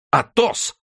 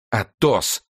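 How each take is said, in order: First: Very high startled cry; astonished exclamation. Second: Mildly anguished appeal; distressed appeal. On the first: D'Artagnan suddenly recognises his friend, astonished exclamation. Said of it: "воскликнул Д'Артаньян". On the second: D'Artagnan wrings his hands before Athos, distressed appeal. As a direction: say the name with understated dismay. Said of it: "ломая себе руки". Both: A narrator's reading.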